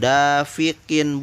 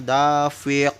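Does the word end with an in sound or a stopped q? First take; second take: in sound; stopped q. First: The word ends with an added in sound. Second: The word stops on the final q sound. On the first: The reader runs on without pausing. The speaker calls it wrong. "Bukan dafiqin, bukan" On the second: The reader pauses at the end of the verse. The speaker calls it right. "tapi dafiq karena diwakofkan"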